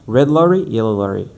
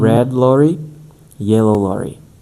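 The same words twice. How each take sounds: First: The phrase is said quickly and rapidly. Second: The phrase is said slowly and carefully. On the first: The speaker calls it right. "we need to accelerate more and more" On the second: The speaker calls it wrong. "it's not gonna make sense if we speak like this"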